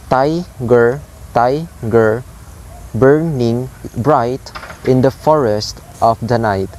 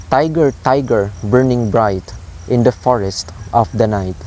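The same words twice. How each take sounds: First: "Tiger, tiger, burning bright" split syllable by syllable, TI and BUR stressed; trochaic stress. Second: Said in the usual way. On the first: Shown as a demonstration. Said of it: "the pattern is high". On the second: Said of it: "It says".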